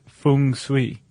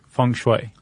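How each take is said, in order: First: It is given the Cantonese pronunciation. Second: It is given the Mandarin pronunciation. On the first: "If we're speaking in Cantonese, we would say" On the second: "If it's Mandarin that we're speaking, Chuck, we should say feng shui"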